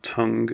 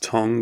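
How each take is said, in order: First: The vowel is an uh sound, as in cup. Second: The vowel is an O sound, as in hot. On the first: "and not tongue" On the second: "pronouncing it as tongue"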